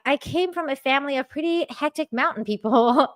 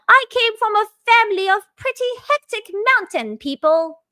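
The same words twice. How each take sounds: First: It is said in the speaker's own American accent. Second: It is said in a put-on British accent.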